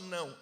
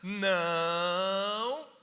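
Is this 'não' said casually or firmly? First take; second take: casually; firmly. First: It is said in a plain, casual tone. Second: It is said in a firm, emphatic tone. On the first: The speaker calls it wrong. "não era só não" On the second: The speaker calls it right. "a gente teve que mudar a entonação"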